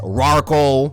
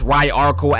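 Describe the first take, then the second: First: The name begins with a plain 'rar' sound. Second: The name begins with a 'rye-ar' sound. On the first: The speaker calls it wrong. "some people like to pronounce Ryarkle as Rarkle, but f that" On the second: The speaker calls it right. "Ryarkle sounds better"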